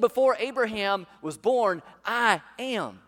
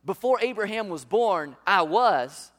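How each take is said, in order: First: Loud, slow "Before Abraham was born, I am" with "am" driven home; right version, stressed. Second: Loud, slow "Before Abraham was born, I was" with "was" hit hard; wrong version, stressed. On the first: Preacher giving the congregation Jesus' real words, loud and emphatic. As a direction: proclaim the true words, landing on "am". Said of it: "He said". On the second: Preacher showing the congregation what Jesus did not say, loud and emphatic. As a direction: preach the wrong wording forcefully, leaning on "was". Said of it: "He didn't say". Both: Shown as a demonstration.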